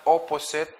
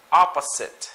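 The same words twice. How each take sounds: First: Opposite with a round OH first vowel; wrong pronunciation. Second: Opposite with an open AH first vowel; correct pronunciation. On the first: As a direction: say "opposite" as "oh-po-sit". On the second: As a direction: say "Opposite" starting AH, as in "ah-puh-zit". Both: Shown as a demonstration. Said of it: "it's not opposite".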